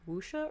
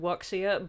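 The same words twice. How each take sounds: First: It is said differently from the English spelling. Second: It is read out following the English spelling. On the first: The speaker calls it right. "it's pronounced wuxia or something" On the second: The speaker calls it wrong. "it's spelled wuxia, but it's not pronounced like that"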